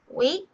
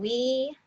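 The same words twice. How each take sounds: First: The vowel is cut off by a throat stop. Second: The vowel flows smoothly with no break. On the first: The speaker calls it right. "you'll cut the air off using the back of your throat" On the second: The speaker calls it wrong. "instead of going we"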